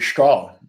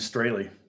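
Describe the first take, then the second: First: The name is said the German way. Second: The name is said the American way. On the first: "the correct pronunciation in German would be" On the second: "that's how you pronounce my name"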